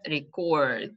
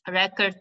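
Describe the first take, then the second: First: The stress is on the last syllable. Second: The stress is on the first syllable. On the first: It is used as a verb. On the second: It is used as a noun.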